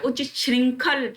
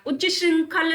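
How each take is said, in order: First: उच्च श्रृंखल said "uch-chhring-khal"; correct chh. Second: उच्च श्रृंखल said "uchch-sring-khal"; no chh in उच्च श्रृंखल; higher उच्च श्रृंखल with a plain sibilant; wrong cluster. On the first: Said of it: "छ, मन में बोलिए". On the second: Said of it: "उच्च श्रृंखल नहीं होता". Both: Shown as a demonstration.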